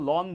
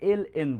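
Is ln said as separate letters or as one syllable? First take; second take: one syllable; letters. First: It is said as a single syllable, lon. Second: It is spelled out as two letters, L N. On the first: The speaker calls it wrong. "এটাকে তোমরা কখনো লন বলবে না" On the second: The speaker calls it right. "তখন সেটাকে আমরা এল এন বলি"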